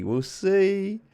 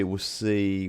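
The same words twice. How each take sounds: First: Teasing sing-song. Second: Said in the usual way. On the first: Shown as a demonstration. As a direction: jump higher for a playful we'll see.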